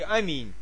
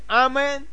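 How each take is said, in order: First: The word ends in a soft 'in' sound. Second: The word ends in an 'en' sound. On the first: The speaker calls it right. "уже сказал бы по-русски" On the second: The speaker calls it wrong. "все равно по-американски"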